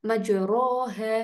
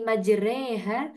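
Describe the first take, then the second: First: The vowel after the r sounds like a. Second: The vowel after the r sounds like e. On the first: "kata re ini kan harusnya ro" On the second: "fathahnya kita miringkan ke kasroh, dibacanya seperti huruf E"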